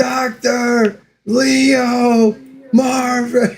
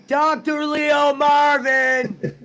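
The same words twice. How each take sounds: First: Very slow, much higher drawn-out name; Bob's drawl. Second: Slow drawn-out name through a laugh; laughing echo. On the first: Friend imitating Bob from the movie, slow drawl. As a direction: stretch each syllable like Bob the patient. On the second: Host repeating his friend's Bob impression, laughing drawl. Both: Retold or imitated.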